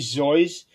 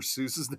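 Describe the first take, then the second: First: The name rhymes with voice and starts with Z. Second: The name rhymes with juice and starts with S. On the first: This is the original family pronunciation. "he would initially say that is actually Zoyce" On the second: This is the common, widely accepted pronunciation. "that's how everybody always pronounced it"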